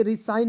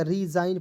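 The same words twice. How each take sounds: First: रिसाइन with a hissed S sound; wrong pronunciation. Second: रिजाइन with a J/Z sound, G silent; correct pronunciation. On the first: Teacher warning students off, misread रिसाइन with S. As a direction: misread it as रिसाइन, S unvoiced as in sign. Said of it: "रिसाइन नहीं पढ़िएगा". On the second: Teacher correcting students' reading, रिजाइन with Z sound. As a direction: voice the middle consonant in रिजाइन. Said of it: "रिजाइन पढ़ा जाएगा". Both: Shown as a demonstration.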